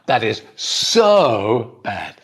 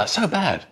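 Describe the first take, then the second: First: 'So' is strongly stressed and lengthened. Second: Said quickly, with no extra stress on 'so'. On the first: This is the newer way, spread by the TV show. "everybody stresses it and makes it longer" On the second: This is the older, ordinary way. "and say it quickly"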